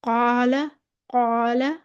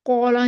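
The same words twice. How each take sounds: First: "कौला" with a heavy alif, lips unrounded; full dark "aa" in "कौला", no w colour; सही मोटा अलिफ. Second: "कौला" with over-rounded lips, vowel turning to "aw"; हद से मोटा. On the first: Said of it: "इतना मोटा नहीं". ("कौला" का अलिफ मोटा, होंठ गोल किए बिना) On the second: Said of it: "नहीं कहेंगे इसको". ("कौला" में होंठ गोल करके वाव जैसी आवाज़) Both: Shown as a demonstration.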